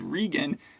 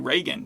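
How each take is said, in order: First: The first syllable sounds like 'regal'. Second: The first syllable does not sound like 'regal'. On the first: The speaker calls it right. "her name is Regan. She's upper class, so it's like Regal" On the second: The speaker calls it wrong. "a lot of people would say Reagan"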